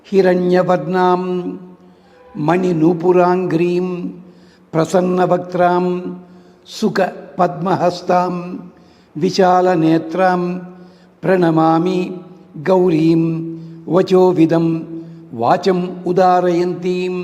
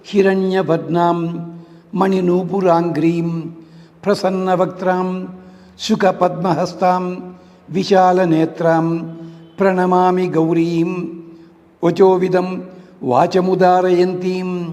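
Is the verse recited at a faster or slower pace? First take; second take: slower; faster. First: The verse is recited slowly and deliberately. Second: The verse is recited at a faster, normal pace.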